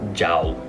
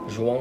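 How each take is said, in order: First: The name is said as an English-style guess. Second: The name is said with Portuguese pronunciation. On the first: The speaker calls it wrong. "I just hate it when people call me Jao" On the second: The speaker calls it right. "The real pronunciation of my name is"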